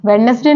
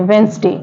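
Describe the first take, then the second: First: वेडनेसडे with the d sounded, wed-nes-day; wrong pronunciation. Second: वेंसडे with silent d, wens-day; correct pronunciation. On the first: Teacher showing students the wrong way, d spoken. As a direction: say वेडनेसडे pronouncing every letter. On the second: Teacher giving students the right form, d silent. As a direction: say वेंसडे, dropping the d. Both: Shown as a demonstration. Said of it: "वेडनेसडे नहीं पढ़ते हैं".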